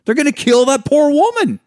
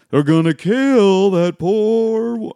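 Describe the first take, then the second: First: High, loud, fretful movie quote; quick loud imitation of the movie line; quoting the movie. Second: Slow, drawn-out and higher movie quote; lingering higher retelling of the line; slow quote replay. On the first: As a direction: blurt the line out high and alarmed. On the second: Retold or imitated. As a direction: savour each word of the line slowly. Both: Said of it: "one of my favorite fucking moments of that movie".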